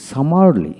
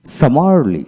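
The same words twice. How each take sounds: The two takes are said the same way.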